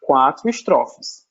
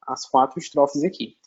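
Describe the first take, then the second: First: Slow, stressed quatro estrofes; stressed count. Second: Said in the usual way. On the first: Shown as a demonstration. Teacher stresses quatro estrofes to her class, slow and deliberate. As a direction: lean on quatro in quatro estrofes, slowly. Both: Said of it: "o soneto é uma estrutura com".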